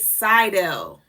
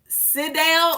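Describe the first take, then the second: First: The first syllable has a long vowel, like 'side'. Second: The first syllable has a short vowel, like 'sid'. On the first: "or if it's side, right, side, S I D E" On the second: "Sid if it's Sid, S I D"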